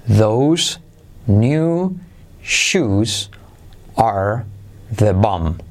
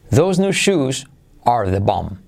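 First: "Those new shoes are the bomb" con pausa tras cada palabra; palabra por palabra. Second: "Those new shoes are the bomb" de corrido, sin pausas; todo junto. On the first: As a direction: separa cada palabra, "bomb" sin b final. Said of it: "¿Ves que no pronuncio la B?". (frase despacio, palabra a palabra, la b muda) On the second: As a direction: une la frase entera, "bomb" como bom. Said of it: "Todo junto". (la frase seguida, de una vez) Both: Shown as a demonstration.

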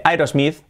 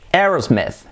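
First: "Aerosmith" said as ai-ros-MIZ; Spanish-style ai-ros-MITH; Spanish pronunciation. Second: "Aerosmith" said as ERS-meth; English-style AIRS-meth; English pronunciation. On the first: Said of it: "no se dice Aerosmith". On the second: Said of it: "Se dice". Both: Shown as a demonstration.

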